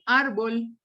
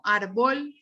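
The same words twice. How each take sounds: First: "árbol" stressed on ÁR, ÁR-bol; stress on first syllable. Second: "árbol" wrongly stressed on the end, ar-BOL; wrong final stress. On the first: Teacher corrects the example for students, "árbol" stressed as ÁR-bol. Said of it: "sino árbol". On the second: Teacher shows students what not to say, "árbol" stressed as ar-BOL. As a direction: push "árbol" onto its last syllable. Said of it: "no digo árbol". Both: Shown as a demonstration.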